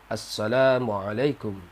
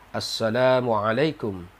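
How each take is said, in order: No difference in how they are said.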